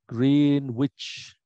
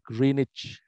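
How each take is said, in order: First: It is said the way it is spelled. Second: It is said the usual spoken way. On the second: "tapi dibacanya"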